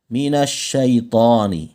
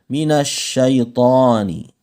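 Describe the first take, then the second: The two takes are said the same way.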